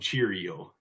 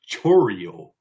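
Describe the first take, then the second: First: The first syllable sounds like 'cheer'. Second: The first syllable sounds like 'chore'. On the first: The speaker calls it wrong. "I like to call him Cheerio, but that, that's not how you pronounce it" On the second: The speaker calls it right. "It's Chorio"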